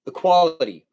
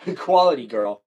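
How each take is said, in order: First: "Equality" said firmly and loud, stressing kwal; correcting "equity" to "Equality", loud and clear; corrected word. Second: "Equality" laughed out loud, with kwal stressed; laughing correction. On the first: Streamer corrects herself to chat, loudly stressing "Equality". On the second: Streamer laughs and repeats "Equality" to chat. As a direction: laugh while saying "Equality" right. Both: Shown as a demonstration. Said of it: "Not equity".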